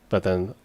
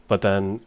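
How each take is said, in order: The two takes are said the same way.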